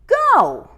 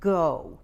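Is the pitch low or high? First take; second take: high; low. First: It is said at a high pitch. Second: It is said at a low pitch.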